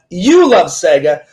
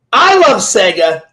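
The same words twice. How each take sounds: First: "You" stretched and pitched up; stress on YOU. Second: "I" stretched and pitched up; stress on I. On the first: Host turning it on the guest, heavy stress on "You". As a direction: lean slowly on the word "You". Contrasts listener with self. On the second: Host to guest before a Sega question, heavy stress on "I". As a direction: lean slowly on the word "I". Contrasts self with the listener. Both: Real, not acted.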